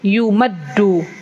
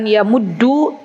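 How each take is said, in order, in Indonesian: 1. Vokal pertama adalah u, yang kedua a. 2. Vokal pertama adalah a, yang kedua u. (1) "tapi yu, yumaddu" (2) "dibacanya bukan yamuddu"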